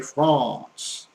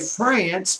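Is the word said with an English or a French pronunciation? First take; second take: French; English. First: It is said with a French pronunciation. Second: It is said with an English pronunciation. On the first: The speaker calls it right. "but you say France" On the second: The speaker calls it wrong. "don't say France"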